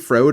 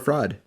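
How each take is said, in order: First: The vowel is a long O sound. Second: The vowel is a short uh sound. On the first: "if the O has a line over it, it's a hard O" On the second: "O can be O or uh"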